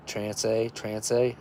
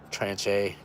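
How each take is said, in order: First: "tranche" said tran-say, softly, ending in a question; unsure retry of "tranche" with an s sound; second French attempt. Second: "Tranche" said tran-chay, soft and hesitant; testing "Tranche" with a ch sound; trying the French. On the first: Retrying the French label word to viewers, unsure. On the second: Sounding out a French word on the package, hesitant. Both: Shown as a demonstration. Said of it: "I'm sure that's not how you say that".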